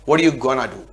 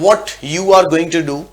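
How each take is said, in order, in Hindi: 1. "Going to" को मिलाकर "gonna" बोला जाता है। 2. "Going to" को दो पूरे शब्दों की तरह बोला जाता है।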